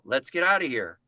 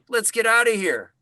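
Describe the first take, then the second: First: The line is delivered with very low energy. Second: The line is delivered with slightly more energy. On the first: "if you start low" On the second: "only come up five percent"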